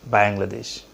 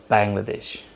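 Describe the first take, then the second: No difference in how they are said.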